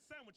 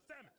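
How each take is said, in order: First: Every sound of the word is fully pronounced. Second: The word is clipped in a Southern way. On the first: "I don't say sandwich" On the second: "I say sandwich"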